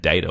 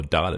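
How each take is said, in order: First: Data said "DAY-ta"; data opening on "day"; American pronunciation. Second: Data said "DAH-ta"; data opening on "dah"; non-American pronunciation. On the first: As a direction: say data with a long "ay" first. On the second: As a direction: say data with an open "ah" first. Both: Shown as a demonstration. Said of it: "depending on, uh, which way you go".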